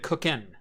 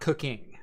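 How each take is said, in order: First: The ending is said without the final g sound. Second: The ending is said with the full g sound. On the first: This is how the speaker's generation would say it. "we didn't believe in the full ing" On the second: This is how the newer slang says it. "not cooking"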